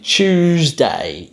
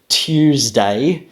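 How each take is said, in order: First: The t and y sounds merge together. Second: The t and y sounds stay separate. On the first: "he's saying" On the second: "as would be the original pronunciation"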